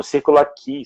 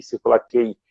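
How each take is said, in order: First: Círculo Aqui with the last syllable as "kee"; pronounced "kee" ending. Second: Círculo Aqui with the last syllable as "kay"; pronounced "kay" ending. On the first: Student recalls where his classes were, "kee" pronunciation. Station name said two ways. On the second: Student repeats the station name, "kay" pronunciation. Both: Shown as a demonstration.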